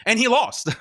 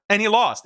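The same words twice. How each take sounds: First: Said in the usual way. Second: Laughing through the words; mocking laugh on the repeat. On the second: Real, not acted.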